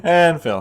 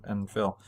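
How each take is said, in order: First: Firmer, clearly audible introduction; livelier redo. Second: Quiet, low throwaway mention; unenthusiastic mention. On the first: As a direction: give the co-host a proper mention this time. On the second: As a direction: let the name drop away, barely voiced. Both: Real, not acted. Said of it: "That sounded horrible".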